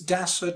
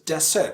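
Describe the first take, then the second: First: The stress is on the first syllable. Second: The stress is on the second syllable. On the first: The speaker calls it right. "stress falls on the first syllable" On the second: The speaker calls it wrong. "not desert"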